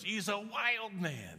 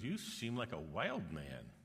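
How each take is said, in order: First: Very high, loud, slow amazed shout; amazed crowd cry. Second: Said in the usual way. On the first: Retold or imitated. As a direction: stretch it out like the whole crowd is in awe. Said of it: "everybody goes". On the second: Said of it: "she goes".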